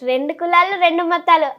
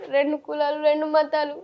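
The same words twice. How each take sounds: First: It is said in a happy, cheerful tone. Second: It is said in a sad, tearful tone. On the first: "ఇప్పుడు సంతోషంలో చెప్తా" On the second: "next బాధ"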